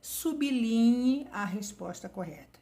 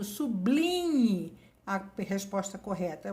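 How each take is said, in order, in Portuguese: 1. O b está separado do l. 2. O b está ligado ao l seguinte. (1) "O certo é" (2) "O professor está falando errado?"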